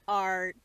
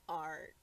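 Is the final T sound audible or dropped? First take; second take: audible; dropped. First: The final T sound is clearly pronounced. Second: The final T sound is left off. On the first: The speaker calls it right. "Thank you" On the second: The speaker calls it wrong. "You didn't pronounce the T"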